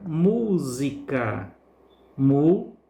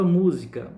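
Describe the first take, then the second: First: Música slowly as MÚ-si-ca, MÚ held long, then Mu alone; stressed syllable demo. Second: Said in the usual way. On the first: Shown as a demonstration. Teacher showing pupils the tonic syllable, música drawn out with MÚ stressed. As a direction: stretch MÚ in música, then repeat Mu by itself. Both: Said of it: "pronunciamos com mais força".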